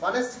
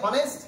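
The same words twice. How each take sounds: The two takes are said the same way.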